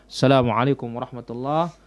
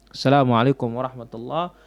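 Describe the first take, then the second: No difference in how they are said.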